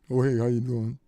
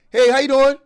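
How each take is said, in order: First: It is said dimly, with low energy. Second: It is said brightly, with lively energy.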